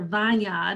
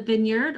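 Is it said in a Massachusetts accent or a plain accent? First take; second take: Massachusetts; plain. First: It is said in Sharon's Massachusetts accent. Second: It is said in a plain, everyday accent.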